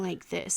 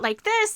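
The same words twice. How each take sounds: First: The voice is pitched low and deep. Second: The voice is at its usual higher pitch. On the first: This is the darker personality of the character. "make it go down like this" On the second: This is the everyday personality of the character. "not like this"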